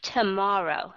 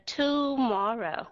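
First: Tomorrow with the first o reduced to a light uh; quick tuh in tomorrow; weak schwa. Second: Tomorrow with a full, clear o in the first syllable; heavy o in tomorrow; over-clear o. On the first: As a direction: skim the to of tomorrow. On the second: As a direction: stress the to of tomorrow wrongly. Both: Shown as a demonstration. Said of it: "mà không phải là tomorrow".

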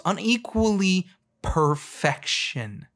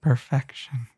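First: Drawn-out slow emphasis on each syllable; slow, weighty declaration; slow and deliberate. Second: Overly emotional single word; hammed-up heartfelt delivery; mock emotional. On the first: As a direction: spell it out slowly for them. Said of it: "Let me say that slower for you". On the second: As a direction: say it like it moves you deeply. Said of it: "I'm gonna say it with more emotion". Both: Shown as a demonstration.

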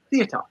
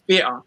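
First: The posh "theatre", th sound at the start; "theatre" in careful BBC English, the th fully sounded; proper th in theatre. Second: The speaker's own London "theatre", F sound at the start; "theatre" started with an F, not a th. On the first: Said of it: "or if you pronounce it theatre". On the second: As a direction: say "theatre" as "featre", with an F for the th. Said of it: "with an F like I did". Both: Shown as a demonstration.

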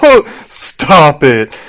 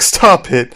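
First: Drawn-out, playful mock protest; joking stop it. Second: Mildly eerie, no longer joking; weirdly serious. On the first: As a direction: stretch it out as though it's all a joke. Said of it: "She's, like, laughing". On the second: Retold or imitated. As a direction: imitate a laughing plea turning serious. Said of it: "her face gets real weird".

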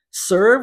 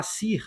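First: Said in the usual way. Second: "sir" read by Portuguese spelling, with an "ee" vowel; Brazilian mispronunciation of "sir". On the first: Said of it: "ao invés de você pronunciar sir". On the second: Shown as a demonstration. Brazilian learner reading English, "sir" mispronounced with Portuguese sounds. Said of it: "possivelmente vai falar sir".

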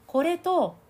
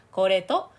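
First: Higher, louder ring through the nose; nasal resonance. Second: Louder, kept in the mouth; mouth resonance. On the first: Coach contrasting nasal and mouth resonance. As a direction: push it up into the nose. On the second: Coach repeating the resonance contrast. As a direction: let it sit in the mouth. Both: Shown as a demonstration. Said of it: "声の響きの違い".

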